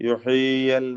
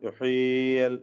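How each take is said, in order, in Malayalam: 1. രണ്ട് y ശബ്ദങ്ങളും അവ്യക്തമായി കൂടിക്കലർന്നു പോകുന്നു. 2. രണ്ട് y ശബ്ദങ്ങളും അവ്യക്തമായി കൂടിക്കലർന്നു പോകുന്നു.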